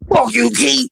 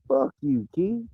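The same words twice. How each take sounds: First: It is said in a harsh, aggressive voice. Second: It is said in a light, easygoing voice. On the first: The insult is hostile and meant seriously. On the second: The insult is casual and not meant seriously.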